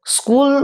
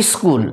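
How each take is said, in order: First: Said in the usual way. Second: স্কুল in its altered everyday form, falling pitch; colloquial altered pronunciation. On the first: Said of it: "বাঁ দিকের উচ্চারণগুলো হচ্ছে শুদ্ধ উচ্চারণ". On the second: Shown as a demonstration. Teacher showing students the altered form, স্কুল mispronounced as "iskul". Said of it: "একটু বিকৃত উচ্চারণ".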